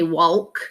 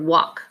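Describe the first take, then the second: First: The word is said with an L sound. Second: The word is said without any L sound. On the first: The speaker calls it wrong. "We don't say walk" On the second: The speaker calls it right. "the A L is making the sound ah"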